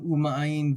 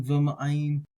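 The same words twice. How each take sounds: First: "u ma'ayin" starting on an "oo" vowel; u reading. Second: "v ma'ayin" starting on a v consonant; v reading. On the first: Teacher comparing two readings, vowel u first. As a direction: open "u ma'ayin" with a pure vowel, no v. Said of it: "some might like to do this as v". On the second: Teacher comparing two readings, consonant v first. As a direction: open "v ma'ayin" with "vuh" in place of "oo". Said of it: "some might like to do this as v ma'ayin". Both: Shown as a demonstration.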